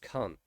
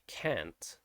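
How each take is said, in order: First: It is said with a British vowel, dropping the T. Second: It is said with an American vowel. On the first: "I'm dropping the T. So it's just can't" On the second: "in American English, it would be can't"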